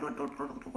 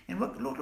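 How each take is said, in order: First: "what, what" leaping high, softer, rising; incredulous high rising "what, what". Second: A flat falling "what, what" before the point. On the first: Indignant speaker mocking billionaires, high rising "what". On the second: Indignant speaker winding up, flat falling "what". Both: Real, not acted. Rhetorical build toward billionaires.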